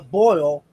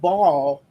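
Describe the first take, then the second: First: The vowel is an 'oy' glide, like 'coil'. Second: The vowel is a plain 'o', like 'coal'.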